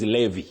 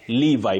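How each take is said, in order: First: The name has the local pronunciation. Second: The name has the standard pronunciation. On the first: "locally what we see is Levi" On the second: "You say Levi"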